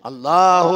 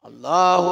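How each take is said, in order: Both takes have the same delivery.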